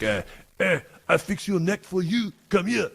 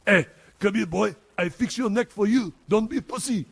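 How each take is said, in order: First: Put-on high, thick French accent of an old veteran. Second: Put-on high, loud French-accented old veteran. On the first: Veteran offering to fix my neck, in French accent. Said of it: "real French accent". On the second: Retelling on request, French accent, louder and higher. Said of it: "One more time with that".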